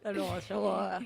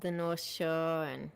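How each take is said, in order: First: Put-on Boston accent. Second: Put-on drawn-out Boston accent on North Shore. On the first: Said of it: "pathetic Boston accent". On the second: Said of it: "listen to my pathetic Boston accent".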